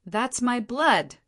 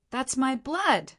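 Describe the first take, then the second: First: "That's my blood" high and drawn out; insistent stress. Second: Restrained angry cry, high and slow; indignant protest, pitched up and drawn out; angry shout. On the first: Stone Emperor reminding Ling Han, "That's my blood" stressed slowly. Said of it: "the Stone Emperor stressed". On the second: Stone Emperor to Ling Han who wants his blood, angry shout. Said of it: "scrunched up in anger, and he shouted". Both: A narrator's reading.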